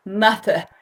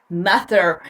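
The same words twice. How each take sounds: First: British accent. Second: "mother" in an American accent, ending on a clear "-er" with the R. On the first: Teacher showing learners a British "mother" after the American one. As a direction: drop the R of "mother", British style. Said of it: "Ahora con acento británico". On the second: Teacher demonstrating an American "mother" to learners, R heard. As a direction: sound the R at the end of "mother", American style. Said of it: "hablar inglés con acento americano". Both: Shown as a demonstration.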